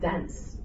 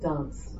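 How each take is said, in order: First: It is said with an Australian vowel. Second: It is said with an English vowel. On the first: The child's accent had become Australian. "her accent started changing. She said" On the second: This is the accent the child used to have. "Not dance"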